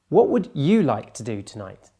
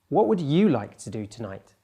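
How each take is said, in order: First: The word you carries the emphasis. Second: The same.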